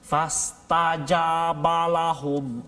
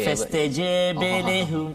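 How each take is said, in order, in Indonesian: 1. Vokal ba tegak sepenuhnya dan terbuka. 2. Vokal ba condong kuat ke bunyi e. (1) "jangan terlalu tegak sangat" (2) "Kalau banyak dia jadi meluap pula"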